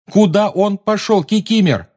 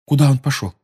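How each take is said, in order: First: High, loud pressing repeat; urgent shout. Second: Urgent question. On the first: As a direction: demand louder the second time. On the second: Anxious questioning. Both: A narrator's reading.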